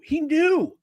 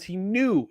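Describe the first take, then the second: First: "he knew" pitched much higher, KNEW stressed; emphatic repeat. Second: Said in the usual way. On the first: Real, not acted. Host insisting on the placeholder theory, "knew" emphatically high.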